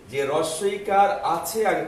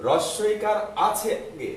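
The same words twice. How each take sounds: First: যে রস্বইকার আছে আগে, slow and louder, pressing রস্বইকার; repeated emphasis. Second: রস্বইকার আছে আগে, slow and higher, each word pressed; slow emphasis. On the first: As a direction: say it again, slower and louder. (রস্বইকার শব্দে জোর দিয়ে আবার ধীরে বলা) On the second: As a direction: stress রস্বইকার for the class. (রস্বইকার শব্দে জোর দিয়ে ধীরে বলা) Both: Shown as a demonstration. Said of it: "আবারও বলছি".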